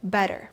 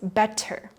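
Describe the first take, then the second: First: The middle T is a soft D. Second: The middle T is a clear T. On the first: The speaker calls it right. "So instead they'll say better" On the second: The speaker calls it wrong. "the textbook way to say it is better. No American will pronounce it like this"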